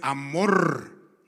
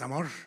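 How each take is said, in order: First: The final r is a strong rolled trill. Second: The final r is a single short tap. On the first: The speaker calls it right. "es amor" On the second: The speaker calls it wrong. "no es amor"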